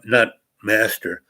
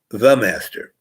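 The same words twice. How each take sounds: First: Said in the usual way. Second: The stressed, master said after it. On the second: Shown as a demonstration. Naming the robed player THE master, stress on the. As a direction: lean hard on the before master. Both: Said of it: "meaning he's not the only master".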